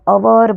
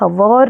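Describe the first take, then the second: First: The word begins with a vowel sound. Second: The word begins with an h sound. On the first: The speaker calls it right. "अवर बोलते" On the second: The speaker calls it wrong. "हवर नहीं बोलते हम"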